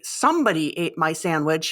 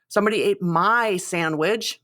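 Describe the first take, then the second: First: The stress is on "somebody". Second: The stress is on "my".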